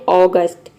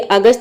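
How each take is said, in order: First: It starts with an open 'aw' vowel. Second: It starts with a short 'uh' vowel. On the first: The speaker calls it right. "ये होता है ऑगस्ट" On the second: The speaker calls it wrong. "ये अगस्त नहीं होता है"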